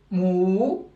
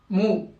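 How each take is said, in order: First: "mou" with the ou held for two beats; long syllable. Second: "mou" with a short ou; short syllable. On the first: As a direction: stretch "mou" into a long moo. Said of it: "c'est des syllabes longues". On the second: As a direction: cut the vowel of "mou" to one beat. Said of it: "Syllabe courte". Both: Shown as a demonstration.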